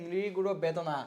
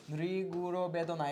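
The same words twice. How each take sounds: First: Said in the usual way. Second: Teacher stretching the answer syllable by syllable; slow, deliberate repeat for students; slow dictation. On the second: Shown as a demonstration. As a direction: draw "নৃগুড় বেদনা" out slowly.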